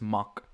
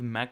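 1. De naam wordt met een Duitse uitspraak uitgesproken. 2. De naam wordt met een Engelse uitspraak uitgesproken. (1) "Het is een Duitse familie" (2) "Het is niet Mac op zijn Engels"

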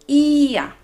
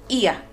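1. La vocal i es larga. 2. La vocal i es corta. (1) "Hay que hacer esa i un poco larga" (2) "Nosotros no decimos ia, no, así es incorrecto"

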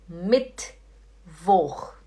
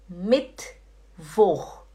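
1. O t vai direto para o som seguinte. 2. O t vai direto para o som seguinte.

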